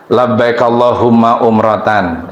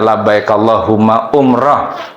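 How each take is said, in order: First: The last word ends with a full 'tan' ending. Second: The last word ends with a short 'h' sound. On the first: The speaker calls it wrong. "bukan umrotan" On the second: The speaker calls it right. "kalau dibaca diwakafkan"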